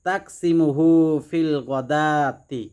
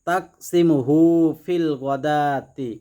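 Both takes have the same delivery.

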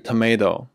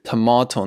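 First: It is said with an American accent. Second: It is said with a British accent.

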